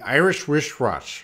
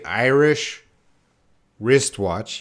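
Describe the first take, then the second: First: The phrase is said quickly in one rush. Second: The phrase is said slowly and carefully. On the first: The speaker calls it right. "You got to say it fast though" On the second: The speaker calls it wrong. "You you can't say"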